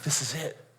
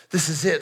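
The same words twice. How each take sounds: First: Hushed. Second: Said in the usual way. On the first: Acted. Hushed anticipation, repeated.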